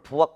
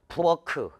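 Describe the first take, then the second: First: The final consonant is unreleased, ending in a stop. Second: The final consonant is released with an extra vowel. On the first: The speaker calls it right. "대표음으로 바꾸어서 부엌 이렇게 발음하면 되는데" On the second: The speaker calls it wrong. "이렇게 발음할 수도 없어"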